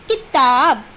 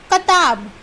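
First: किताब said as kitab, short i on कि; कि in किताब clearly. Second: कताब said as katab, no ई; कताब, plain ka; without the i sound. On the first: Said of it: "का पे छोटी की मात्रा की". (किताब छोटी ई के साथ) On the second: (कताब बिना मात्रा के) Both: Shown as a demonstration.

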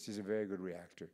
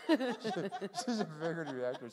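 First: Said in the usual way. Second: Slower, higher, said through a laugh; laughing repeat. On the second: Real, not acted. Teller repeating her pun, laughing.

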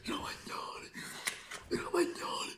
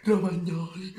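First: Breathy whispered chant of the name. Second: High excited shout of the name. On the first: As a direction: hiss the name in a hushed thrill. Goal call, whispered take. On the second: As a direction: yell the name like a goal call. Goal call, contrasted with whisper. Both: Acted.

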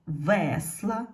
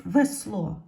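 First: "весла" with the stressed е clear, ending on a rise; "весла" with the weight on the first syllable. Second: "Весло" loud, stressed on the final о; "Весло" with the weight on the last syllable; stress on second syllable. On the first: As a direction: put the beat on ве in "весла". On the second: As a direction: say "Весло" with the beat on ло, е unstressed. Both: Shown as a demonstration. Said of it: "стали наголошеними".

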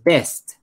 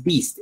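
First: "best" with a short open e, pitched up; correct word. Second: "beast" with an ee vowel, pitched up; wrong word. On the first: Teacher correcting learners, "best" with short e. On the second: Teacher correcting learners, "beast" with ee. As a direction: offer "beast" with ee as the one to reject. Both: Shown as a demonstration. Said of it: "No, no es".

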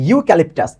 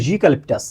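First: Said in the usual way. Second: ইউক্যালিপটাস begun like soft "zhu"; soft z-like onset. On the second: Shown as a demonstration. Teacher corrects learners' idea of the word, ইউক্যালিপটাস with z-like onset. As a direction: put a buzzed z-glide before the u in ইউক্যালিপটাস. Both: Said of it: "ইউ মানে জের মতো".

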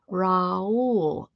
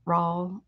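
First: "Raul" said as "rah-OOL"; two-syllable Raul. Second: "Raul" as one syllable, like "rawl"; her Raul. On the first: Streamer trying the other pronunciation, "Raul" as "rah-OOL". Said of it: "Should I pronounce it that way?". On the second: Streamer giving her own version, "Raul" said like "rawl". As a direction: rhyme "Raul" with Paul. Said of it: "That's how I say it". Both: Shown as a demonstration.

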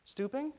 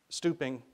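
First: Put-on very high, rising child's echo; puzzled question. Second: Said in the usual way. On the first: A narrator's reading. Ty puzzled by the intercom's word, questioning. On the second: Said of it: "said the intercom speaker".

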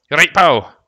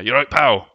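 First: Put-on Scottish accent pushed higher and much louder. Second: Mock Scottish accent, louder and raised. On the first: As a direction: boom it out like a cheery Scottish lad. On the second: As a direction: put on a Scottish lad voice for pal. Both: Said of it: "Pal's a good Scottish".

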